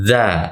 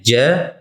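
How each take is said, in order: First: The consonant has the tongue tip between the teeth. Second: The consonant is a 'j' sound. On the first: The speaker calls it right. "Yang benarnya ujung lidah pian, pian sentuhkan ke tengah-tengah gigi dua muka di atas" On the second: The speaker calls it wrong. "kebanyakan orang tersalah membacanya"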